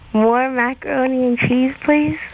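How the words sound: It is read eagerly, with hungry zest.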